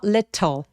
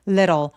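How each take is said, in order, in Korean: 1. 가운데 t는 딱딱하고 분명한 t입니다. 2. 가운데 t는 부드럽게 굴리는 소리입니다. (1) "little 해도 되지만" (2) "약간 굴러가는 소리가 나서"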